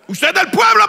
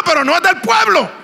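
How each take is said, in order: First: Pueblo hit high and loud as the claim; stress on PUEBLO. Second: No set against the claim, loud and high; stress on NO. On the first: Preacher states the listener's belonging, pueblo punched high. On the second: Preacher denies the listener's belonging, no punched loud. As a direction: punch "no" in "no es del pueblo", falling end. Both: Acted.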